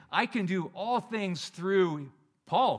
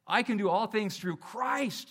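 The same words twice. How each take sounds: First: Slow, louder, self-important drawl; mock boastful misquote. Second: Slow, firm, stress on Christ; earnest correct quote. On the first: Pastor mocking a proud Paul, slow and boastful. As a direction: puff up and savour the wrong word Paul. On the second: Shown as a demonstration. Pastor correcting the misquote, firm and slow. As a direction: land "Christ" deliberately and gravely.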